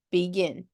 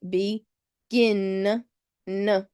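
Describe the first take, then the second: First: Said in the usual way. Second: "begin" split, with "gin" held and its final "n" sounded alone; stressed last syllable. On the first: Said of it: "and then gin". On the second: Shown as a demonstration. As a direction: lean on "gin" in "begin", then isolate the "n". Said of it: "that last syllable is stressed".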